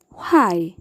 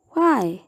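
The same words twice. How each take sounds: First: Said in the usual way. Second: Why pronounced hw; why with h before w. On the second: Shown as a demonstration. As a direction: say why as hwy, breathy h first. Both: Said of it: "with the W H sequence".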